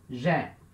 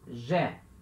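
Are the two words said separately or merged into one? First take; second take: merged; merged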